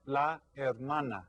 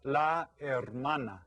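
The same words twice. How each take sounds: First: La hermana said clearly to repeat; model for the class. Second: Slow, clear la hermana with a silent h; Spanish word. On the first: Teacher asks the class to repeat, clear model. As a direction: say La hermana for everyone to copy. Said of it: "Can everyone say that?". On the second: Teacher models a Spanish word for kids, slow pronunciation. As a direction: model la hermana slowly, no h sound. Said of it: "En español es". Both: Shown as a demonstration.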